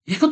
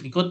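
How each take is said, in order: First: It is said high-pitched and lively. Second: It is said low-pitched and flat. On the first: The person really wants to come along. "dengan nada lebih tinggi menunjukkan apa ya, kita mempersepsikan, oh dia excited" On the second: The person does not really want to come. "kalau misalnya nadanya rendah gitu ya"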